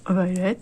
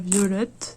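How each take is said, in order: First: The name is said with an English accent. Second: The name is said with a French accent.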